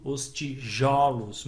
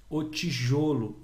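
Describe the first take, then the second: First: "tijolos" with a wide-open o in "jo"; open vowel. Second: "tijolo" with a closed o in "jo"; closed vowel. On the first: Teacher contrasting plural with singular, open vowel. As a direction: slowly, open the stressed o of "tijolos". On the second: Teacher contrasting singular with plural, closed vowel. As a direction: slowly, close the stressed o of "tijolo". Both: Shown as a demonstration. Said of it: "Mudou o som".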